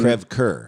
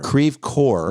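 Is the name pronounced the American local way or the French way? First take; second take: French; American. First: The name is said with a French pronunciation. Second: The name is said with a local American pronunciation. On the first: This is how the French name should sound. The speaker calls it right. "which should be" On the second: This is how the locals say the street name. The speaker calls it wrong. "purposely mispronounced by Saint Louis"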